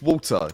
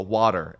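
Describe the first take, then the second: First: Said in the usual way. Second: North American "water" with a tapped t and r ending; North American accent. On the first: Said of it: "or water, as they say over here". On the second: Shown as a demonstration. Caster showing local pronunciation, North American accent. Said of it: "over here in North America".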